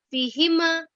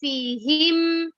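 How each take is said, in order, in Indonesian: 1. M akhir memantul menjadi ada vokal tambahan. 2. M akhir berhenti bersih, tanpa vokal. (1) "jangan dipantulkan ketika mim sukun" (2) "harus jelas ya"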